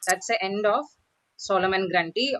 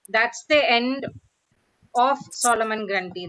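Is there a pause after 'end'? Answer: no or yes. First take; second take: no; yes. First: There is no pause after 'end'. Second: There is a pause right after 'end'. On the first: The speaker calls it right. "You would not pause soon after end" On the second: The speaker calls it wrong. "That's not how you say, right?"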